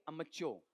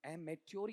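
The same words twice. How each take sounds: First: "अमच्योर" as um-uh-CHO; modelled pronunciation. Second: "एमेच्योर" as ay-MET-yor; alternative pronunciation. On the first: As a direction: start "अमच्योर" with short अ. ("अमच्योर", शुरू में छोटा अ) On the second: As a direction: open "एमेच्योर" with a long ए. ("एमेच्योर", शुरू में लंबा ए) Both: Shown as a demonstration. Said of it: "बोलो एमेच्योर या अमच्योर?".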